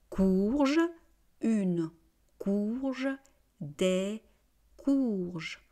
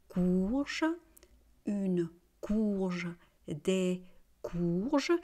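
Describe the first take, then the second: The two takes are said the same way.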